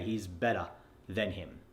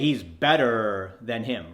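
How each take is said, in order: First: The ER sound in better is dropped entirely. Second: The ER sound in better is heavily exaggerated. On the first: "That way you're not going" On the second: "you're never going to say"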